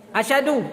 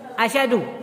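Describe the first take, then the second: Both takes have the same delivery.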